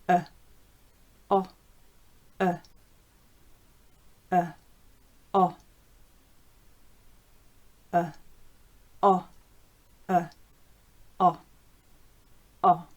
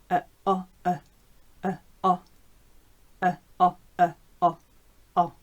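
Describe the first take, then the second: First: The sounds are said slowly. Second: The sounds are said quickly. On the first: "The first time we'll go quite slowly" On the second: "now let's try a bit more quickly"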